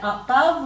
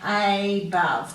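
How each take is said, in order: First: The first vowel is a weak schwa sound. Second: The first vowel is a long A sound. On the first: The speaker calls it wrong. "We tend to say above, we give it a schwa sound" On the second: The speaker calls it right. "we've got a long vowel sound on the A. So when we say this one, we should be saying above"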